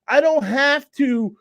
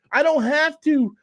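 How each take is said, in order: Both takes have the same delivery.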